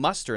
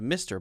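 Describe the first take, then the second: First: The first vowel sounds like 'uh'. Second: The first vowel sounds like 'ih'. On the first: "the Scottish accent, it sounds a little bit to me more like muster" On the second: "instead of Mister"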